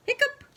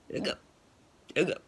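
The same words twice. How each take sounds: First: High squeaky rising hiccup; hammed-up hiccup. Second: Realistic hiccup. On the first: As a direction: try it as a high cartoon hiccup. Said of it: "I don't know how best to say that". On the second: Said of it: "That's probably a better one". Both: Shown as a demonstration.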